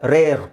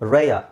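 First: The word ends with a clear r sound. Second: The word ends in a soft uh, no r. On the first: The speaker calls it wrong. "ನಾವು ಹೇಳಬೇಕಾದ್ರೆ ರೇರ್" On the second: The speaker calls it right. "Actually ಅವರು ಹೇಗೆ ಹೇಳ್ತಾರೆ ಅದನ್ನು ರೇಯ"

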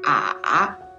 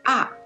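First: The pitch dips low and deep. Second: The pitch falls sharply from high to low. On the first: "So the third tone is ah" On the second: "The fourth tone is ah"

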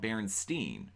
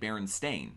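First: The name ends with a 'steen' sound. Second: The name ends with a 'stain' sound. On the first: "not Berenstein" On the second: "I'm saying Berenstain"

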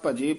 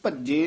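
First: The middle consonant is short and soft. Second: The middle consonant is held long and doubled. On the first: The speaker calls it right. "ਭਜੇ ਪੋਲਾ ਹੀ ਬੋਲਣਾ" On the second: The speaker calls it wrong. "ਇਹ ਭੱਜੇ ਨਹੀਂ ਕਹਿ ਦੇਣਾ"

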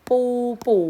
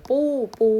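Both takes have the same delivery.

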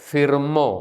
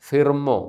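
Both takes have the same delivery.

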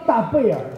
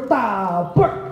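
First: The last syllable is said as a separate syllable. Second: The last syllable merges into the previous one. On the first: The speaker calls it wrong. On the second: The speaker calls it right.

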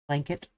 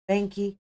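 First: It is said with the L and T sounds. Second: It is said without the L and T sounds. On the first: The speaker calls it right. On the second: The speaker calls it wrong.

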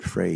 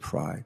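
First: The name's vowel rhymes with 'day'. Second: The name's vowel rhymes with 'dry'. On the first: This is how the name's owner says it. "but he pronounces it Frey" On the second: This is how many people say the name. "A lot of people, F-R-E-Y, they pronounce it Fry"

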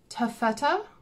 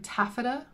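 First: The word is said in a non-American pronunciation. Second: The word is said in an American pronunciation.

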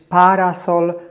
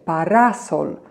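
First: The middle vowel is short and unstressed. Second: The middle vowel is stressed and lengthened. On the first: The speaker calls it wrong. "Nie mogę powiedzieć parasol" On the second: The speaker calls it right. "muszę bardzo wyraźnie i dosyć długo powiedzieć samogłoskę a, środkową"

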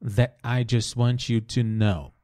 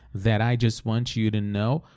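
First: The T is held with a brief stop. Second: The T links into 'I' like an R. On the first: "Ele vai fazer essa pausa aqui, breve pausa. Ele vai segurar esse T" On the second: "se você quiser conectar com o som do R"

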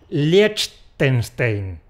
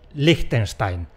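First: It is said letter by letter as spelled. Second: It is said close to the German pronunciation. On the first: The speaker knows no German. "voy a pronunciarlo como está escrito" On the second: The speaker knows some German. "La solución culta es decir Liechtenstein. Es lo que más se acerca a la pronunciación alemana"

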